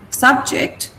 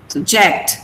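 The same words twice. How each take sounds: First: Subject said slowly as SUB-ject; noun stress. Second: Subject said slowly as sub-JECT; verb stress. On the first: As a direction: put the weight on sub in subject. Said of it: "subject is a noun". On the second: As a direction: put the weight on ject in subject. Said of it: "subject is a verb". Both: Shown as a demonstration.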